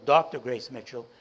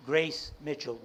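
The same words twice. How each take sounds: First: "Doctor Grace Mitchell" with "Doctor" punched louder; stress on Doctor. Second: Said in the usual way. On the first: Shown as a demonstration. Correcting himself to honour the owner, stress on "Doctor". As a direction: correct yourself and lean hard on "Doctor".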